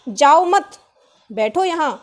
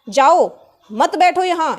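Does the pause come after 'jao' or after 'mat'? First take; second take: after mat; after jao. First: The pause comes after the word mat. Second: The pause comes after the word jao. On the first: The listener is asked to stay and sit. "उसने तो ये कहा" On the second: The listener is told to leave. "मैंने क्या बोल समझा"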